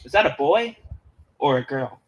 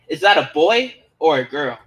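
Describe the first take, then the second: First: It is asked plainly, at normal loudness. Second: It is asked louder, in a taunting tone.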